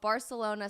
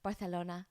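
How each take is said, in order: First: It is said with an English pronunciation. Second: It is said with a Spanish pronunciation.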